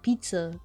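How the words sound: The word is said with an English pronunciation. "In in English, it's like pizza"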